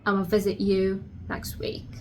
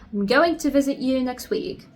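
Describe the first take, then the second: First: 'I'm going to' is shortened to 'ama'. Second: Every word of 'I'm going to' is fully pronounced. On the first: "another pronunciation of that, which is ama" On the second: "instead of saying I'm going to"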